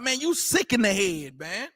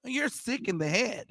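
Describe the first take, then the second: First: Lightly voiced street-style put-down; casual street talk. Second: Put-on softer, careful white American accent; mock proper white American diction; white person's speech. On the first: Preacher quoting how his own people would say it, casual street talk. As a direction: toss it off like talk on the block. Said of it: "Only niggas be like". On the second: Preacher imitating a white person saying it, white American accent. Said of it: "heard a white person say".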